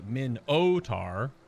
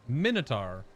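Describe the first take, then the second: First: The middle 'o' syllable is clearly stressed. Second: The middle 'o' syllable carries no special stress.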